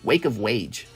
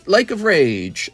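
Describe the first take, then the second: First: The R sounds are replaced with W sounds. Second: The R sounds are pronounced as normal R sounds.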